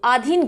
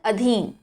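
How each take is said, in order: First: The first vowel is long. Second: The first vowel is short. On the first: The speaker calls it wrong. "आधीन गलत होता है" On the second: The speaker calls it right. "क्या बोला जाता है?"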